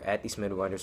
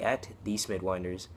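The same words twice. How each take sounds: First: It is said at normal speed. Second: It is said slowly.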